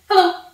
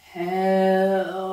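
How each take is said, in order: First: Hello is said very quickly. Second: Hello is said very slowly.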